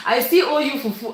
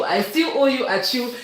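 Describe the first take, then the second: First: Words through a laugh, a bit fast; a fast, teasing laugh as you confess. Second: Said in the usual way. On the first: Real, not acted. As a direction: laugh while you admit it. Teasing a viewer about food.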